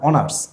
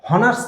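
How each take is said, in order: First: The word begins with a vowel, no h. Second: The word begins with an h sound. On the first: The speaker calls it right. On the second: The speaker calls it wrong. "হনার্স না"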